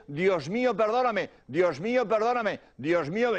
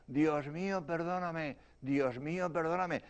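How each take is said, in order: First: Retold prayer at full voice; woman urging victims. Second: Much softer, acted victim's prayer; faint answering voice. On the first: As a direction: lead others in the prayer, clearly audible. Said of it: "se asomó a la ventanilla y dijo". (mujer que guía la oración, voz plena) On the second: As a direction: answer weakly, as if from the wreck. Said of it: "oí una voz que decía". (voz débil que responde, muy bajito)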